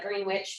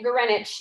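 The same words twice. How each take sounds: First: The name is said as its spelling suggests. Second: The name is said in its reduced spoken form. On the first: "even though it looks like Greenwich" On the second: "we say it Greenwich"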